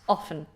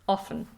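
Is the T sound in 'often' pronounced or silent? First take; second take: silent; silent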